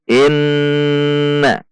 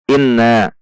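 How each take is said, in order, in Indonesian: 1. Huruf n ditahan panjang dengan dengung hidung. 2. Huruf n pendek, tanpa dengung hidung. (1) "harus dengung" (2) "Inna tidak boleh"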